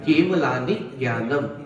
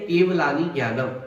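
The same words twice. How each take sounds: First: The syllable before the conjunct is clearly stressed. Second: The syllable before the conjunct gets no extra weight. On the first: The speaker calls it right. "बल आपको देना पड़ेगा" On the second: The speaker calls it wrong. "तो अपन पढ़ते कैसे"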